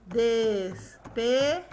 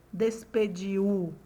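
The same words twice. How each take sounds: First: DESPEDIU as des, pe, diu with long gaps; very slow DES, PE, unbroken DIU; slow syllable by syllable. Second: DESPEDIU with the end broken as di-U; low, slow "despediu", U pulled apart from DI; overseparated final I and U in DESPEDIU; DESPEDIU split wrongly. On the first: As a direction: count out "Despediu" in three beats. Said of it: "Vamos falar pausadamente". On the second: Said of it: "Ou eu falo". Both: Shown as a demonstration.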